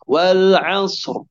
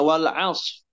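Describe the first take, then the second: First: The final r sound is heard only faintly. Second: The final r sound is dropped entirely. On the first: "terdengar suara ro-nya namun sedikit" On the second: "menghilangkan huruf ro-nya"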